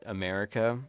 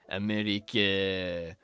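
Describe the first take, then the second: First: It is said in the speaker's own accent. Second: It is said in a put-on French accent.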